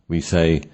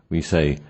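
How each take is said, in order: No difference in how they are said.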